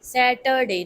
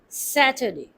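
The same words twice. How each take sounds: First: The middle syllable has a full vowel. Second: The middle syllable is reduced to schwa. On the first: The speaker calls it wrong. "we will not pronounce it Saturday" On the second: The speaker calls it right. "converted to E R due to schwa sound"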